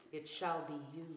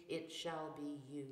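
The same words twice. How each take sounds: The two takes are said the same way.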